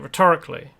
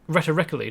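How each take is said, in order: First: The stress is on the second syllable. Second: The stress is on the first syllable. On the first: The speaker calls it right. "You ask it rhetorically. The emphasis is on a different syllable" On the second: The speaker calls it wrong. "you don't ask it rhetoric rhetorically"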